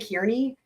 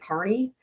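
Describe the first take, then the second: First: The first syllable sounds like 'keer'. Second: The first syllable sounds like 'car'. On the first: This is how some other people say the name. "Some people say Kearney" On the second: This is how the man himself says his name. "but he pronounces it Carney"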